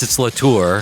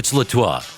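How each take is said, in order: First: The name is said with an American pronunciation. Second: The name is said with a French pronunciation. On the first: "if it's Americanized" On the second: "If it's French"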